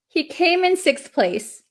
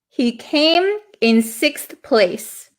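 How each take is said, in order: First: It is said a little more quickly. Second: It is said at a normal speed.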